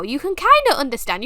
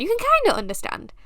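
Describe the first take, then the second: First: Said in the usual way. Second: A squeaky, hurried parody of her own line; high, fast mock repeat. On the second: Mocking her own Urdu to the viewers, high and fast. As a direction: echo it much higher and quicker.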